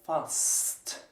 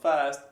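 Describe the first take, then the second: First: The final s and t are said separately. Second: The final s-t is blended into sht. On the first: The speaker calls it right. "We pronounce them individually" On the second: The speaker calls it wrong. "that's not fast"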